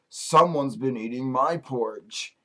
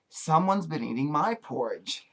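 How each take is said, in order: First: It is said in a big voice. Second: It is said in a sweet little voice. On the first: "in his big voice" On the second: "in her sweet little voice"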